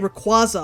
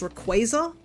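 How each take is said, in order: First: The ending sounds like the word squash. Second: The ending sounds like the word quasar. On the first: The speaker calls it wrong. "I used to say Rayquaza" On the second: The speaker calls it right. "apparently it's Rayquaza"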